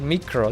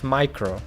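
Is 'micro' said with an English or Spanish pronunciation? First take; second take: Spanish; English. First: It is said with a Spanish pronunciation. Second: It is said with an English pronunciation. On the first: "We say micro" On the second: "in English it's micro"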